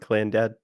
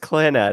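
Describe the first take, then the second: First: The name is split like 'clan' plus 'dad'. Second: The name is run together as one word. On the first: The speaker calls it wrong. "I was pronouncing it bad too because I was trying to be funny" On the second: The speaker calls it right. "No, it's Clanad"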